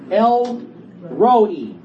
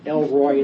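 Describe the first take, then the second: First: The name ends with a separate 'ro-ee' sound. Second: The name ends with a single 'roy' sound. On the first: The speaker calls it right. "So it's not Elroy" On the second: The speaker calls it wrong. "I've been saying Elroy like Elroy in the Jetsons. So I've been saying it wrong"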